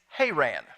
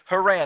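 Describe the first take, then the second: First: The name is said in the standard way. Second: The name is said in the Oklahoma way. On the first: "the correct pronunciation is Haran" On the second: "we don't say it that way in Oklahoma, so I'm going to stick with Haran"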